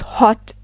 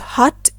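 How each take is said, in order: First: It is said with a rounder British O. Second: It is said with an open American O. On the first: "in British English" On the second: "in American English"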